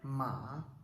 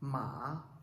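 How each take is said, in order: First: The pitch dips down and then rises. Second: The pitch dips down and then rises.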